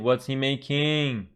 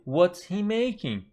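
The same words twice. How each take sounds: First: The voice rises at the end. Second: The voice falls at the end. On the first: The speaker calls it wrong. "We don't say" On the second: The speaker calls it right. "the intonation is falling"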